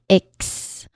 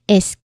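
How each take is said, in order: First: The ending is pronounced with k before s. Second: The ending is pronounced with s before k. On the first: The speaker calls it wrong. "not ix" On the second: The speaker calls it right. "it ends with isk"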